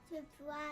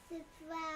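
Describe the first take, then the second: The two takes are said the same way.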